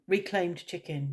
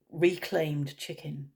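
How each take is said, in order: First: Said in the usual way. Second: Reclaimed chicken, slowly and deliberately; slow emphasis. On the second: Shown as a demonstration. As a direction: lean on "reclaimed", stretch it out.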